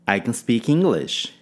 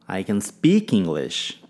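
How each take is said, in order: First: The stress falls on the word English. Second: The stress falls on the word speak. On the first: The language is English, not some other language. "Ênfase em English" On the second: The point is that the speaker actually speaks it. "Ênfase em speak"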